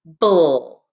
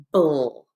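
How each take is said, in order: First: Bull said louder, exaggerated; modelled bull for class. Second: Bull said as a short dull syllable; syllable ble modelled. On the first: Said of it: "B L E is". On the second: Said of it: "I'm always going to say". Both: Shown as a demonstration.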